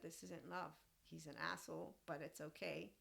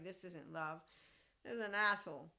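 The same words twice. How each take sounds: First: Softer, settled and matter-of-fact; calm quiet verdict. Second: Louder, punchy, certain; emphatic inner verdict. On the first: To the tall boy who called her short, calmly and softly shrugging it off. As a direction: say it calmly, as if it costs nothing. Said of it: "I said". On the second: To the tall boy who called her short, a loud firm inner verdict. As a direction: bang it out like a private verdict. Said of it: "And in my head". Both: Retold or imitated.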